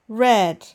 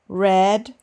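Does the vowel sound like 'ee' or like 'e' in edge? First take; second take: e; e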